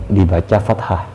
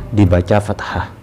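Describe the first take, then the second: The two takes are said the same way.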